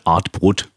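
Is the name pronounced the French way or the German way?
German. The name is said with German pronunciation. "sagen wir einfach schön deutsch"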